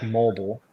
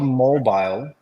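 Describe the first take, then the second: First: Mobile said as MOH-bull; second syllable of mobile like "bull"; alternative pronunciation. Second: Mobile said as MOH-bile; second syllable of mobile rhymes with "mile"; as spelled. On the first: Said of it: "is it pronounced mobile or mobile". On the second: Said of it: "so it's spelled". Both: Shown as a demonstration.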